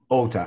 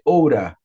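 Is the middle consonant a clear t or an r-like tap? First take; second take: clear t; tap. First: The middle consonant is a clear t sound. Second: The middle consonant is a quick r-like tap. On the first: "É Ota" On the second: "como fosse Oura no inglês americano, T com som de R"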